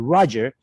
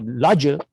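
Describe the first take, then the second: First: The word begins with an R sound. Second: The word begins without an R sound. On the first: "no podrían decir Roger con la R" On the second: "sino Roger"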